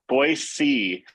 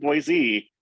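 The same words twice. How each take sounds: First: The middle consonant is a hissing s sound. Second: The middle consonant is a buzzing z sound. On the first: The speaker is a local. The speaker calls it right. "you got to say it like see, like you see something" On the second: The speaker is not from the area. The speaker calls it wrong. "If you're saying Boise, then you're not from here"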